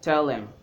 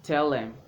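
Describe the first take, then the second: First: The word 'them' is reduced to 'em'. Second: The word 'them' is reduced to 'em'.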